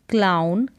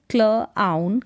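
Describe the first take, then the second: First: Said in the usual way. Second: क्ल आउन in two parts; sounded out. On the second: Shown as a demonstration. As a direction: separate the blend क्ल from आउन. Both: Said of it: "C L का उच्चारण क्ल".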